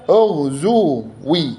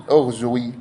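First: أغزوي very slow and high, split "ughzuu-wii"; drawn-out demonstration of أغزوي with "zu" then "wi"; damma on zay. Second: Said in the usual way. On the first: Shown as a demonstration. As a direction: stretch أغزوي syllable by syllable. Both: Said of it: "بضم الزاي".

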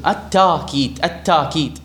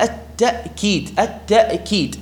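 First: "التأكيد" with a long aa, no glottal stop; hamza softened to alif. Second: "التأكيد" broken by a glottal stop, "ta'-keed"; still hamza sounded. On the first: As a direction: say "التأكيد" as "at-taa-keed". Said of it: "ألفا على القياس". (نطق «التأكيد» بألف ممدودة بلا همز) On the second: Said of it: "هذه التاء ما بها مفتوحة والهمزة ساكنة". (نطق «التأكيد» بهمزة ساكنة واضحة) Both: Shown as a demonstration.

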